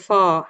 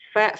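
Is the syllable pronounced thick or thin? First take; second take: thick; thin. First: The syllable is pronounced thick and rounded. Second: The syllable is pronounced thin and light. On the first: The speaker calls it wrong. "jangan fo" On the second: The speaker calls it right. "fa-nya tipiskan"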